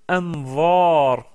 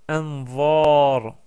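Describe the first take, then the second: No difference in how they are said.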